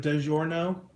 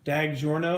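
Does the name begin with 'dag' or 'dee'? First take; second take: dee; dag. First: The first syllable is said as 'dee'. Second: The first syllable is said as 'dag'. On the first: "instead of DiGiorno" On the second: "Dag, D A G, like Dag"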